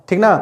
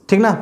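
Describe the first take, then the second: Both takes have the same delivery.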